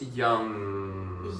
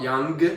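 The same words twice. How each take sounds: First: The word ends in a nasal sound, no g. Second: The word ends with an audible hard g. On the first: The speaker calls it right. "the mm sound going into the nose and never quite saying g" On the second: The speaker calls it wrong. "It's not young"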